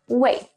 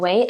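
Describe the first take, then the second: First: The pitch falls through the word. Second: The pitch rises through the word. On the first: "like to say it with the fourth falling tone" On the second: "pronounced as the second rising tone, Wei as, as if asking a question"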